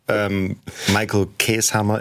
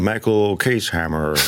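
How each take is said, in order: First: The name is said with a German accent. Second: The name is said with a Canadian English accent. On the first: This is how the name is said at home. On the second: This imitates how the name is said in Canada. "kriegen die das von irgendeinem Clip von Kanada und dann probieren die es auch so nachzusprechen"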